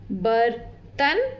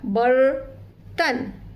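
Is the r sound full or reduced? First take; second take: full; reduced. First: The r is said as a full separate sound. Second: The r is short and curled into the next consonant. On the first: "चारों letter पूरी sound के साथ सुनाई देते हैं" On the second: "रेफ के साथ ... sound थोड़ी सी छोटी हो जाती है"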